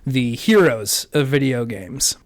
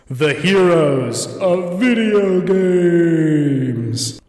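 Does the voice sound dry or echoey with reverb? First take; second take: dry; echoey. First: The voice sounds plain and dry, without reverb. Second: The voice sounds echoey, with added reverb.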